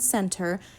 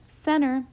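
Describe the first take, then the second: First: The T sound in the middle is pronounced. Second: The T sound in the middle is dropped. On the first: "remove the T sound in center" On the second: "to make the command sound more like center"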